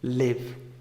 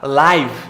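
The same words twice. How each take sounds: First: The vowel is a short i sound. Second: The vowel is not a short i sound. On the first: To reside somewhere or be alive. "é como se fosse um e disfarçado, esse izinho aqui" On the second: Broadcast in real time. "O que é ao vivo é o que você já sabe falar"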